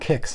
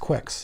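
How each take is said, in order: First: The name begins with a plain k sound. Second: The name begins with a kw sound. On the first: The speaker calls it wrong. "It's not Kicks" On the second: The speaker calls it right. "it's Quicks"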